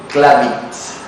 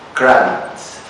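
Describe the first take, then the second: First: The name sounds like Spanish 'clave de sí'. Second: The name is said with ordinary English sounds. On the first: "under particular pronunciation would be something like Kravitz. That in Spanish would be something like clave de sí" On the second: "would be Kravitz"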